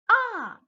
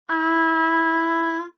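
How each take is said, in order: First: It is said with the fourth tone. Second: It is said with the first tone. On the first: "the fourth tone is ah" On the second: "The first tone is ah"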